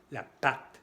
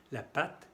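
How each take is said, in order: Both takes have the same delivery.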